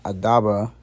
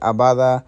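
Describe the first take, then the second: First: The d sound comes before the b sound. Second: The b sound comes before the d sound. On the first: The speaker calls it wrong. "I didn't realize I was saying it wrong" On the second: The speaker calls it right. "not Adaba, Liel Abada"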